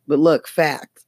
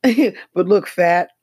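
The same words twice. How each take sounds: First: "fact" said with a clear k and t at the end; corrected fact. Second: "fat" said clearly as fat, no t sound, a little higher and louder; misheard fat. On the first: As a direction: quote it as "But look, fact", closing on the t. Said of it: "Simone Sanders said, he said". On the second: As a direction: quote it as "But look, fat" with a plain a and no t. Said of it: "they think he said". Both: Retold or imitated.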